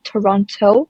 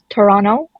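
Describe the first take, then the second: First: Every sound is pronounced fully and clearly. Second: Some sounds are swallowed, giving a clipped word. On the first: This is not how locals say it. "and not Toronto" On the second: This is how locals actually say it. "They sort of swallow it, just like how we pronounce Toronto"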